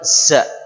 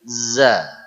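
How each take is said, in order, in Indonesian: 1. Bunyi z didesis. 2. Bunyi z bersuara tanpa desis. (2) "diucapkan tidak pakai desis"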